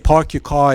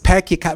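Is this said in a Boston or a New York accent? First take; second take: New York; Boston. First: It is said in a New York accent. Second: It is said in a Boston accent. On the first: "we would say park your car in Harvard Yard in New York" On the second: "park your car in Harvard Yard is pack your car"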